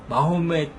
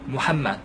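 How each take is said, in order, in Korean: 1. 이 이름은 마호멧이라고 발음합니다. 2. 이 이름은 무함마드라고 발음합니다. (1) "역시 잘못된 표현입니다" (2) "무함마드라고 쓰시고 발음하실 수 있어요"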